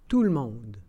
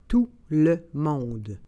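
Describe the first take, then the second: First: It is said at normal conversational speed. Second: It is said slowly and carefully. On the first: "and then in communicational Canadian French" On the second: "then slowly said in French"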